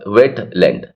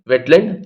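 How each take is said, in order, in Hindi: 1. wet और land के बीच हल्का सा विराम है। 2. Wet और land बिना किसी विराम के आपस में जुड़ जाते हैं। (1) "वेट और लैंड के बीच में अलग वो आती है बात" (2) "चिपका करके बोलना"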